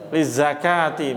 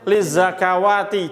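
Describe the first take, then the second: First: The word is read with no w sound inside. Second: The word is read with a w sound inside. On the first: The speaker calls it right. "Lizakati bacanya" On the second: The speaker calls it wrong. "Jangan bacanya lizakawati, jangan. Salah"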